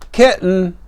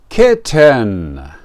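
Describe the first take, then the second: First: The word is said quickly with reduced middle sounds. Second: The word is said slowly with every sound clear.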